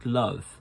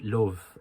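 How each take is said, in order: First: The vowel is a central uh sound. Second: The vowel is rounded like an oh sound. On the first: "the uh sound" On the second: "they turn it into a oh oh sound"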